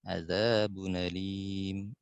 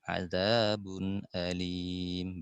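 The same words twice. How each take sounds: First: The hamza drops and the sounds run together. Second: The hamza is pronounced fully with a glottal catch. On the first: "Nakal dulu" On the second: "Kemudian tahqiq"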